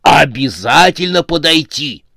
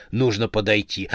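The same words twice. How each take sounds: First: Louder, higher, emphatic resolve; excited insistence. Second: Said in the usual way. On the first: A narrator's reading. Fan resolves to approach his idol, excitedly insistent. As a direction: burst out with starstruck determination.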